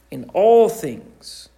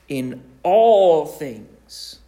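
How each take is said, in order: First: ALL stressed, a little louder and slow; firm echo stressing all; repeated emphasis. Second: In all things drawn out slowly, each word weighted; deliberate stressed scripture phrase; slow emphasis. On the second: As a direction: stretch it out to drive it home. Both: Shown as a demonstration.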